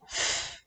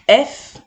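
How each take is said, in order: First: Only the f sound is heard, no vowel. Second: A vowel comes before the f sound. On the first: This is the sound the letter makes. "elle fait le son F" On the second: This is the letter's name. "elle s'appelle F"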